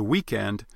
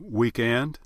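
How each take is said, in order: First: Said in the usual way. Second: "weekend" with the stress moved to the other syllable from usual, drawn out slowly; shifted Southern stress. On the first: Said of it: "the stress on words can actually shift around". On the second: Shown as a demonstration. Dialect coach shows Southern stress shift on a slow "weekend". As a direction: shift the beat in "weekend" and stretch it. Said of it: "may change to".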